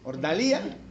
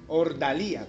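First: The stress falls on the syllable li. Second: The stress falls on the syllable da.

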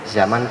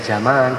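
First: The second vowel is short. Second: The second vowel is long.

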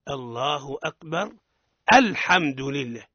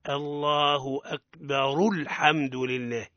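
First: A stop, then alhamdu begins with a clear hamza. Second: Alhamdu is linked on, with its opening hamza dropped. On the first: The reciter has stopped before starting a new phrase. "أما إذا وقفنا لابد أن نحققها" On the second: The recitation continues without stopping. "نأتي بها متصلة"

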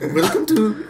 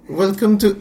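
First: It is spoken in an Indian accent. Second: It is spoken in an Australian-sounding accent. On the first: "I can do Indian" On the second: "That's Australian"

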